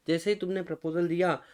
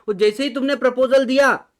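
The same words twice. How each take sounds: First: Said in the usual way. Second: Louder and higher, driving the point home; excited teacher emphasis; emphatic. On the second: Shown as a demonstration. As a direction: punch out proposal so the class wakes up. Teacher stresses the key moment.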